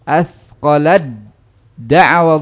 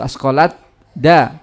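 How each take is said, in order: First: The t merges fully into the following d. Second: A separate t is pronounced before the d. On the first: The speaker calls it right. "yang terucap adalah dalnya athqala da'wa Allah, ya, ta'nya hilang" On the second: The speaker calls it wrong. "tidak asqalat da"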